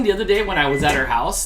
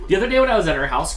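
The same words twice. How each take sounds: First: Said in the usual way. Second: 1 rushed retake. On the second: Shown as a demonstration.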